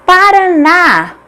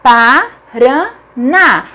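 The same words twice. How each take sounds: First: "Paraná" as one word, high, with long final ná; whole word "Paraná", drawn out on ná; stressed last syllable. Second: "Paraná" broken as pa... ra... ná; very slow "Paraná", three detached beats; syllable by syllable. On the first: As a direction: announce "Paraná" slowly, stretching the last syllable. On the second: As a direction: separate each syllable of "Paraná" with clear pauses. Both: Shown as a demonstration. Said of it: "A última sílaba é tônica".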